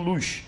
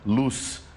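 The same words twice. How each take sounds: First: It is said in a Portugal accent, ending in sh. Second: It is said in a Brazilian accent, ending in s.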